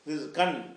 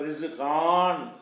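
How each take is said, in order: First: The vowel in the last syllable is short. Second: The vowel in the last syllable is long. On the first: The speaker calls it right. "அப்படி தான் அது படிக்கணும்" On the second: The speaker calls it wrong. "ரிசு கான் என்று எழுதியிருக்கிறது"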